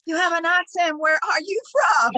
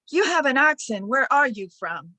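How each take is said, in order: First: High, loud mock-curious question; playful imitation of a nosy stranger, pitched high; teasing comeback. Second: Lightly voiced curious stranger, raised at the start; a touch of pointed curiosity, settling on the question; nosy stranger. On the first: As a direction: throw the question back, hammed up. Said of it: "a way to get back at people". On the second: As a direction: imitate someone stopping you to ask. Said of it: "people will stop me solid and say".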